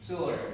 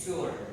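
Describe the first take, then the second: First: It is said in an American accent. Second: The same.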